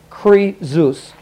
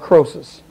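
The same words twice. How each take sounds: First: The middle consonant is a buzzing Z sound. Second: The middle consonant is a hissing S sound. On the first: This is the pronunciation given in the reference key. "they pronounce it Croesus, like a Z" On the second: This is the usual, familiar pronunciation. "Croesus is the way that it's usually pronounced"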